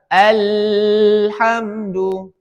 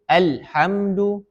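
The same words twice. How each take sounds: First: The l sound flows on far too long. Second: The l sound is abruptly cut off. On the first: "Tidak boleh mengalirnya deras" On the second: "Diputus, tidak ada alirannya"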